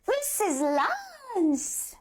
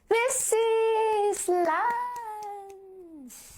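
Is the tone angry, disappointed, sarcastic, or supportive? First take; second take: angry; sarcastic. First: It sounds forceful and mad. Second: It sounds mocking and insincere. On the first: "try natin maging angry"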